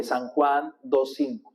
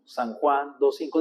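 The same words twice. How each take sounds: First: Slow, deliberate memorizing chant; teacher's drill pace; slow recitation. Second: Steady repeat of the verse, slightly slow; teacher repeating a verse; repeated recitation. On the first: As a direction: spell it out slowly for the congregation. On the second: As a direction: drill it again for memory. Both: Shown as a demonstration. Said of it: "dígalo cinco veces para que lo memorice".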